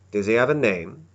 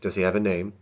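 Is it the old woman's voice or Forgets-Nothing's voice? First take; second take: old woman; Forgets-Nothing. First: It is said in the old woman's voice. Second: It is said in Forgets-Nothing's voice.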